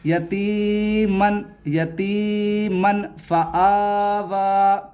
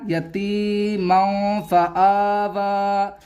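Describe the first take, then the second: First: यतीमन slowly with a sharp final n; wrong clear-n reading. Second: यतीमौ very slow with the noon hidden nasally; slow hidden-noon reading; slow nasal ikhfa. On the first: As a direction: end यतीमन on a plain n. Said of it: "ऐसे नहीं पढ़ा जाएगा". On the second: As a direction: stretch यतीमौ फआवा through the nose. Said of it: "अब पढ़ा जाएगा". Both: Shown as a demonstration.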